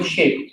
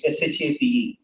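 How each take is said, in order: First: Said in the usual way. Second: S H A P E spelled letter by letter. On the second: Shown as a demonstration. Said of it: "I call them shape".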